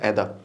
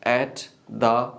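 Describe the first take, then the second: First: The two words are merged into one. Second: The two words are said separately. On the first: The speaker calls it right. "You have to pronounce like एदा" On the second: The speaker calls it wrong. "Not एट द, अलग अलग नहीं पढ़ना"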